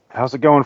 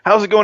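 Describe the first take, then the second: First: It is said in a normal speaking voice. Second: It is said in a put-on radio announcer voice.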